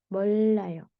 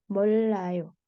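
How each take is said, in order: The two takes are said the same way.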